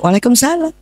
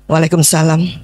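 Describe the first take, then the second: First: The voice is soft, gentle and sweet. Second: The voice is firm, flat and businesslike. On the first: The wife sounds tender toward her husband. The speaker calls it right. "Latihan bu" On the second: The wife sounds independent. The speaker calls it wrong. "itu mandiri ya"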